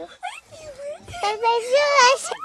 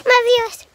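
First: Very high, slow sing-song; exaggerated cartoon intonation. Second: Loud plain delivery; louder plain. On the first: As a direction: stretch it out in a cartoon voice. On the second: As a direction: say it louder, normally. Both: Shown as a demonstration. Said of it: "Yes, I do".

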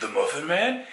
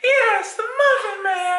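First: "Muffin Man" as a rising question; questioning echo. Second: Very high, loud put-on squeal; emphatic answer. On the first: Acted. Acting both sides of bit. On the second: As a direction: confirm "Muffin Man" with hammed-up hysteria. Acting the emphatic answer in bit.

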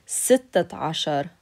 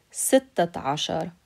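The two takes are said the same way.

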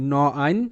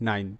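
First: "ন আইন" split into ন and আইন; sounded out in parts. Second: Said in the usual way. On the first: Shown as a demonstration. Teacher explaining the letter N to beginners, "ন আইন" sounded out. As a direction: give each part separately: ন, then আইন. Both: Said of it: "এনতে ন".

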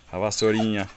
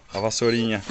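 The two takes are said the same way.

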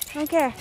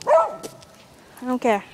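First: Said in the usual way. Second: Voicing the dog.

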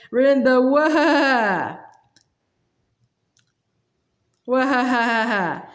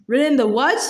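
First: Last word stretched into a wavering whinny; indignant horsey whinny on "what"; horse's neigh. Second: Mildly scornful, incredulous question; horse's disbelieving put-down; contemptuous retort. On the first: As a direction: start in words, then break into a drawn-out neigh. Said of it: "came out in a sort of neigh". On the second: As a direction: retort with a touch of disdain. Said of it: "with extreme contempt". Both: A narrator's reading.

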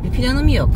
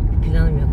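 First: Higher, louder swoop on "yok"; high-pitched admission. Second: Said in the usual way. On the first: Real, not acted. Musing on plans for home, high swooping "yok". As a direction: lift "yok" high, then let it fall. Repeats same phrase two ways.

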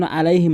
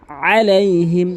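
First: আলাইহিম said quickly with plain a; missing ayn. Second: Chanted আলাইহিম opening on squeezed throat ayn; weighted ayn. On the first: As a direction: open আলাইহিম lightly, no throat pressure. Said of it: "যেন আলাইহিম না হয়". (আইন ছাড়া হালকা আলাইহিম) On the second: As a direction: lean on the first sound of আলাইহিম. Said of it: "ভর দিয়ে বলতে হবে". (আলাইহিম-এ আইনে ভর দিয়ে) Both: Shown as a demonstration.

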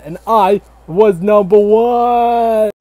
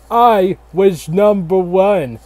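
First: Slow, loud, higher victory shout; triumphant shout. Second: Slow, puffed-up presidential boast; lightly voiced George Washington bragging; mock presidential boast. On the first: Acted. George Washington shouting his victory to the crowd, slow triumphant shout. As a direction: bellow the boast to the crowd. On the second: George Washington bragging to the nation, slow puffed-up boast.

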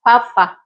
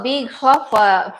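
First: "Papa" said cleanly with a P sound; the careful corrected "Papa"; corrected name. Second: "Big Papa" said as "Big Fofa" with an F sound; misread name. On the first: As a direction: fix it to a clear "Papa". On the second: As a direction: read "Papa" wrongly as "Fofa". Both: Shown as a demonstration.

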